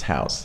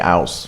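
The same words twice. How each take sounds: First: An H sound is heard at the start. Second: No H sound is heard at the start. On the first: The speaker calls it right. "It's house" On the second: The speaker calls it wrong. "we don't say house"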